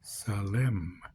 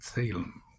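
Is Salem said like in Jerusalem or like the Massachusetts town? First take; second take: Jerusalem; Massachusetts town. First: It sounds like the ending of Jerusalem. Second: It sounds like the Massachusetts town name. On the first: It names the ancient city of the priest-king. The speaker calls it right. "we're talking about Salem like in Jerusalem" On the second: It names the town known for witches. The speaker calls it wrong. "We're not talking about the witches of Salem in Massachusetts"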